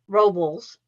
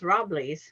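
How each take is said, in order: First: The name ends without a 'lee' sound. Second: The name ends with a 'lees' sound. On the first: This is how the speaker expected it to be said. "I thought it would be Robles" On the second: This is how the local family says it. "no, it's Robles. And I thought, there's no Lee in there for me"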